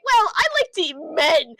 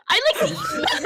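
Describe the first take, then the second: First: Said in the usual way. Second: Sudden yell. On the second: Acted. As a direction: burst out on "men". Princess repeats line, shouted.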